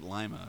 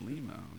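First: It is said like the town in Ohio. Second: It is said like the capital of Peru. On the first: The place meant is the town in Ohio. "then he pronounced it Lima" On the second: The place meant is the city in Peru. "Well, Peru, yeah"

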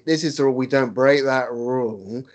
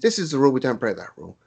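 First: It is said in a drawling, disappointed tone. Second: It is said in a clear, firm tone. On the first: The coach is let down by the player. The speaker calls it wrong. "And you don't say" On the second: The coach is simply stating the rule. The speaker calls it right. "It's just clear instruction"

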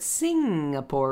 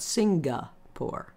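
First: The NG ends with no G sound. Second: The NG is followed by a G sound. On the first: The speaker calls it right. "There's no G" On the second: The speaker calls it wrong. "is not"

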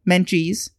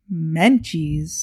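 First: The name is run together as one word. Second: The name is split clearly into two parts. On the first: The speaker calls it wrong. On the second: The speaker calls it right.

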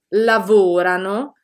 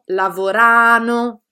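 First: The stress falls on the first syllable. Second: The stress falls on the third syllable. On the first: The speaker calls it right. "sono corretti" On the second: The speaker calls it wrong. "sono sbagliati"

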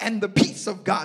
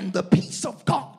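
First: It is said in a plain speaking voice. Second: It is said in a dramatic preacher voice.

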